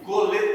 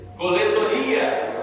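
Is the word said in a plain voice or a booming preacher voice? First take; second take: plain; preacher. First: It is said in a plain, ordinary voice. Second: It is said in a booming, prophet-like preacher voice.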